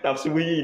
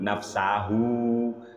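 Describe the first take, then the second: First: The word ends with a -hi sound. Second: The word ends with a -hu sound. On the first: The speaker calls it wrong. "Nafsahu dibaca nafsuhi" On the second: The speaker calls it right. "Yang benar itu Pak Dul"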